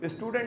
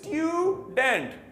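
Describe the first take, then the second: First: The u is said as a plain oo. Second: The u is said as yoo. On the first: The speaker calls it wrong. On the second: The speaker calls it right.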